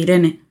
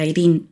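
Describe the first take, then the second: First: It is said with a Spanish pronunciation. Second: It is said with a British pronunciation.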